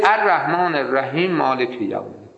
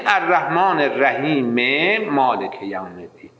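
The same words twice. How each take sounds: First: الرحیم مالک run together so the two m sounds become one; الرحیم مالک said as rahimmaalek, one m lost; two mims merged. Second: الرحیم مالک joined with a clear e, rahime maalek, both m sounds heard; correct joined reading. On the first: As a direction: wrongly merge الرحیم مالک into a single m, quickly. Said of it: "دو تا میمه آقا جون،". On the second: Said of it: "اگه خواستی وصلش بخونی". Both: Shown as a demonstration.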